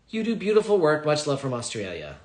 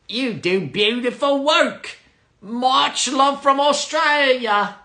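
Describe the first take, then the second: First: It is read in the speaker's ordinary accent. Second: It is read in a put-on Australian accent.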